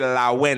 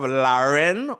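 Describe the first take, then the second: First: The middle consonant is a W sound. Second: The middle consonant is an English-style R. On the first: "or a W" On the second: "pronounced like an English R"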